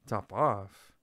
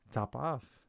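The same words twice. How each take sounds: First: Loud shocked cry; cried out. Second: Coolly offhand, a bit louder. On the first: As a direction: cry it out in disbelief. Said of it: "cried the mouse". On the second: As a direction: toss the name off coolly. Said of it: "said the cat quite coolly". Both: Acted.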